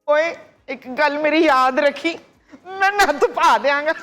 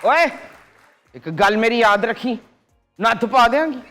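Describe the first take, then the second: First: It is said in a happy tone. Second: It is said in an angry tone.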